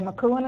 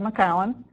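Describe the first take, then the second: First: The name is said like 'McCoon'. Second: The name is said like 'McCowan'. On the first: The speaker is not from upstate New York. The speaker calls it wrong. "Don't pronounce it McCoon. You can tell you're not from upstate New York if you say" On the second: The speaker is from upstate New York. The speaker calls it right. "instead of"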